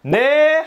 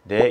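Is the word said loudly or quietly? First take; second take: loudly; quietly. First: It is said very loudly. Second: It is said quietly.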